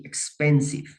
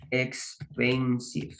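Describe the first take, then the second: First: Said in the usual way. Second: Expensive stretched out syllable by syllable; slow word demonstration. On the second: Shown as a demonstration. Teacher writing up a new example word for students, slow and drawn out.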